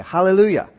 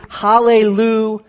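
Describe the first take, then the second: First: Said in the usual way. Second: Hallelujah drawn out, paused before the final "jah"; word broken into parts. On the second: Shown as a demonstration. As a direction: stretch Hallelujah and split off its last syllable. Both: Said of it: "Hallel means to praise".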